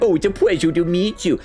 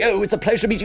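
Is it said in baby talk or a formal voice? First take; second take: baby talk; formal. First: It is said in a cooing baby-talk voice. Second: It is said in a stiff, formal voice.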